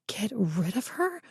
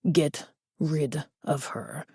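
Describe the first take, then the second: First: Rising, disbelieving repeat, softer; incredulous. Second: Put-on slow, soft, menacing Spanish-accented order. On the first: Acted. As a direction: echo the order in shocked disbelief. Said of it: "frantic and desperate". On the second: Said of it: "A heavy Spanish accent".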